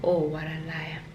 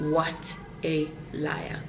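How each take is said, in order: First: Said in the usual way. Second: Slow, softer, in an altered voice; mock self-accusation. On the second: Shown as a demonstration. Vlogger calling herself out for lying, slow and mocking. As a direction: drag it out, teasing yourself.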